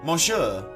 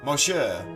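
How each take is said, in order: Both takes have the same delivery.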